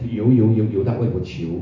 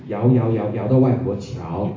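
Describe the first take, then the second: First: The first word is said as 'you', not 'yao'. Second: The first word is said as 'yao'. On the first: The speaker calls it wrong. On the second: The speaker calls it right.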